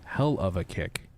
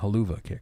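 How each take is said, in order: First: Each word is said separately and clearly. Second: The words run together quickly into one.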